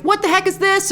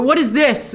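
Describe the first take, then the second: First: A higher "What the heck is this?" with a punch on What; mock American take. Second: Imitating European way. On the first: How an American would react, lightly voiced blunt American. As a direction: play the blunt American version of the line. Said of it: "an American would never say that". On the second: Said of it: "the way he says it is just so wonderfully European".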